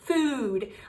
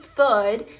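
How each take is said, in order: First: The vowel is a long ooh sound. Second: The vowel is a short uh sound. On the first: The speaker calls it right. "we eat food" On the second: The speaker calls it wrong. "if you pronounce that O O as uh, then you'll have food. All right, and we don't eat food"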